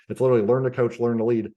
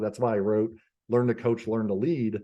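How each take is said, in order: First: "learn to coach" and "learn to lead" punched louder; emphatic title. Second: Said in the usual way. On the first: Real, not acted. Plugging his book to the host, emphatic and louder.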